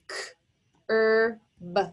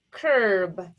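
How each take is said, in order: First: Curb split into k, er, b with pauses; segmented phonics sounds, "K-er-b"; sounded out. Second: Said in the usual way. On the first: Shown as a demonstration. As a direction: tap out "K-er-b" sound by sound. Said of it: "Tap it out". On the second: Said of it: "The word is curb".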